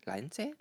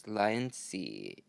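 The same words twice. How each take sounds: First: "Laenci" said quickly, rising like a question; questioning pronunciation attempt. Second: "Laenci" stretched slowly, falling at the end; drawn-out pronunciation attempt. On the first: Vlogger testing the brand name aloud, questioning. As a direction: try "Laenci" in one go, unsure, pitched up. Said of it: "Let's go give it a try". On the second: Vlogger correcting Balenciaga to the brand name, slow sounding-out. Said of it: "I don't know how to pronounce the name". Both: Shown as a demonstration.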